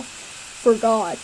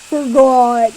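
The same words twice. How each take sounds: First: Deep boy attempt. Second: Gruff boy attempt. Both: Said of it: "I can't do deep voices".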